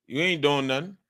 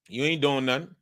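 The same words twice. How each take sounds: The two takes are said the same way.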